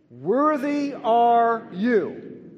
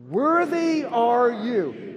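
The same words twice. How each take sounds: First: Loud, slow, high proclamation; congregation call. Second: Loud, slow, high proclamation; louder call again. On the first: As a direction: proclaim it slowly and loudly together. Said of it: "let's say the first three words together". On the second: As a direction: draw it out loudly as a call. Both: Shown as a demonstration.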